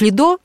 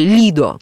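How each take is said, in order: First: The stress is on the last syllable. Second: The stress is on the first syllable. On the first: This is the form familiar to Russian speakers. "для нас привычное ударение на последний слог" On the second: This is how Italians say it. "как его называют итальянцы"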